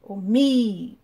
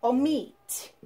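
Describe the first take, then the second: First: Omit with MIT loud and stretched out; exaggerated final stress. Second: Omit with MIT stronger; stress on last syllable. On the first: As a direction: lean hard and long on MIT in Omit. (Omit com MIT bem mais forte e alongado) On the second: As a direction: say o-MIT, falling on MIT. (Omit com MIT tônico) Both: Shown as a demonstration. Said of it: "Mais forte".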